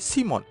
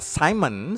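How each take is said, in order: First: The name is said with Danish pronunciation. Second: The name is said with English pronunciation. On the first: The speaker calls it right. "tapi Simon" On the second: The speaker calls it wrong. "bukan dibaca Simon seperti orang Inggris"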